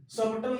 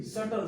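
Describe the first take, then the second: First: सबटल with a clear b before the t; B sounded in सबटल. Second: सटल with no b sound; silent B in सटल. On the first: Teacher showing students the wrong reading, b pronounced. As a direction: say सबटल wrongly, voicing the silent b. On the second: Teacher showing students the right reading, b left silent. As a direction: say सटल, going straight from vowel to t. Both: Shown as a demonstration. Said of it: "सबटल नहीं".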